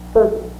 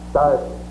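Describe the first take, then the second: First: The word has its modern American pronunciation. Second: The word has an older pioneer-era pronunciation. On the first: "A modern American would pronounce it certain" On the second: "in pioneer days, an American might have said certain"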